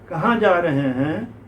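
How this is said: A light accent is used, said seriously. The character is portrayed naturally. The speaker calls it right. "Serious seriously बोलिए, ये accent है"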